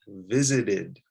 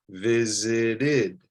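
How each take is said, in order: First: Said in the usual way. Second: "visited" drawn out as VI-ZI-DID; "visited" stretched, all three beats distinct; extra syllable. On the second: Shown as a demonstration. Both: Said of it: "you're adding an extra syllable".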